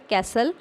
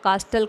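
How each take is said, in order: First: The t sound is silent. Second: The t sound is pronounced after a long a. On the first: The speaker calls it right. "इसमें टी जो है वो silent है" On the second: The speaker calls it wrong. "या कास्टल कई बच्चे पढ़ते हैं इसको"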